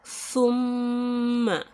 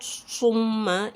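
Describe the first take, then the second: First: The word begins with a th sound. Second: The word begins with an s sound. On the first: The speaker calls it right. "not summa, is not seen, but thumma, tha" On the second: The speaker calls it wrong. "not summa, is not seen"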